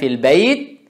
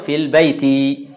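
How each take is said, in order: First: The last word ends without a final vowel. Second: The last word ends with a final i vowel. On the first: "tanpa dibaca baris akhirnya" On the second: "atau fil baiti. Ini boleh"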